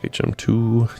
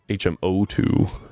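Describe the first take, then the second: First: It is read without a zero before two. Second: It is read with an O before two.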